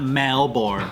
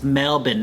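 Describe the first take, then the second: First: It is said with a plain American pronunciation. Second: It is said with a local Australian pronunciation. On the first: This is the form an outsider uses. The speaker calls it wrong. "not Melbourne" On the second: This is the locally correct form. The speaker calls it right. "actually, it's Melbourne"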